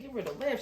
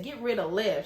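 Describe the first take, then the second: First: "Get rid of Lev" rising at the end; questioning echo. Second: Said in the usual way. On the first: Retold or imitated. Order echoed back as a question.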